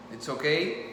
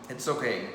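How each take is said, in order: Both takes have the same delivery.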